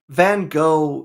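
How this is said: The name is said with an American pronunciation. "how an American would say it"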